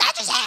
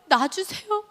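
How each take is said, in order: First: Very high-pitched mock scream; screamed demand. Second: Small, high-pitched plea without shouting; tearful meek request. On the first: Patient first begging for anaesthetic, screaming. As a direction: shriek it out, imitating desperate pain. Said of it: "이러고 소리를 질렀는데". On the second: Retold or imitated. Patient answering the nurse about anaesthetic, tearfully meek. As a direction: ask meekly through imitated tears. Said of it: "마취제 놔달라고 말을 해야 되겠는데 막 눈물만".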